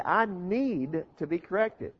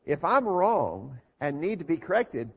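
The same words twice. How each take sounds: First: Need said slowly and leaned on; stress on need. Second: Said in the usual way. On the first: Shown as a demonstration. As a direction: lean hard into need, unhurried. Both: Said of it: "notice the emphasis on the word need".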